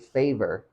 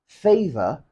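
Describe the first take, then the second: First: The final R is pronounced. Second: The final R is silent.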